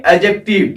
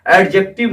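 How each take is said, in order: First: "एडजेक्टिव" with the d left silent; correct pronunciation. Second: "एडजेक्टिव" with the d heard before the j; wrong pronunciation. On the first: Teacher correcting students, "एडजेक्टिव" without the d sound. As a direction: say "एडजेक्टिव" as "a-jective". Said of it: "क्या बोलना है?". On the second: Teacher showing the mistake, "एडजेक्टिव" with a sounded d. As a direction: put a d into "एडजेक्टिव". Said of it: "नहीं". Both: Shown as a demonstration.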